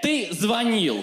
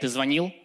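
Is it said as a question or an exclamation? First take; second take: exclamation; question. First: It is said as an accusing exclamation. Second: It is said with a questioning intonation. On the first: The caller declares the call as caught evidence. "хотя можешь не отвечать" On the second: The caller asks whether a call was made. "почему он говорит «ты звонил» с вопросительной интонацией?"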